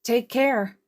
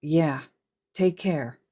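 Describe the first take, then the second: First: Chirpy goodbye. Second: Quiet echo. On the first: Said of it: "Uraraka chirped". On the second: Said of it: "Izuku echoed". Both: Acted.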